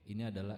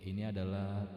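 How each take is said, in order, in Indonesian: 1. Suara ini memiliki reverb pendek seperti ruangan kecil. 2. Suara ini memiliki gema panjang seperti valley. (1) "ini adalah efek room" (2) "ini adalah efek valley"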